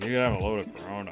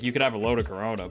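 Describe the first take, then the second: First: It is said in a teasing, daring tone. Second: It is said in a plain, neutral tone.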